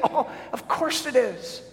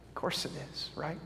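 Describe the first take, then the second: First: Chuckling, pitch lifted high; amused reassurance with a laugh. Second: Near-whispered, much softer; soft confident whisper; hushed. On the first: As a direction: laugh it off as obvious. Answers own question, laughing. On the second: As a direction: drop to a breath for emphasis. Soft answer to own question. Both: Real, not acted.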